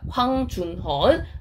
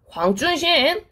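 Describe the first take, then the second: First: The name is said in the Korean character reading. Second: The name is said in its original Chinese pronunciation. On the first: This is how Koreans read the written characters. "한자식으로 우리가 읽으면 황준헌이라고 읽히는데" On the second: This is the author's own name as he says it. "발음이 황준신 하고 이름을 외치는 거야"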